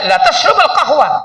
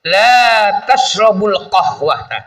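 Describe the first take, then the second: First: The vowel in the first word is short. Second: The vowel in the first word is long. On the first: She really does drink coffee. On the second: She does not drink coffee.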